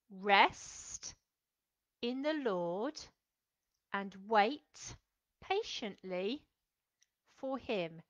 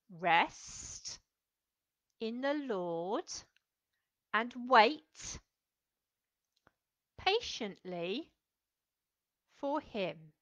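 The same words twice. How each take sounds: First: Each phrase slow with long pauses, fading softer; slow, spaced recitation. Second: Each phrase slow with long pauses; slow, spaced recitation. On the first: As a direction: say it slowly for the children to follow. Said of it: "Do you think you can do that again". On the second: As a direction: say it slowly, one sign at a time. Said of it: "we're going to go like this". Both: Shown as a demonstration.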